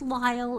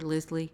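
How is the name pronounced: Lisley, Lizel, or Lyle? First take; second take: Lyle; Lisley. First: It rhymes with mile, with no middle sound. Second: It has two syllables ending in an ee sound. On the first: The speaker calls it right. "it's pronounced Lyle" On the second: The speaker calls it wrong. "everybody gets Lyle wrong"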